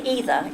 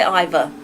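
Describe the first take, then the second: First: "either" as EE-ther. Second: "either" as EYE-ther. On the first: A streamer telling chat how she says the word, EE-ther. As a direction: say "either" with a long ee sound, EE-ther. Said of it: "I say either". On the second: A streamer telling chat the version she never uses, EYE-ther. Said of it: "I never say either". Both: Shown as a demonstration.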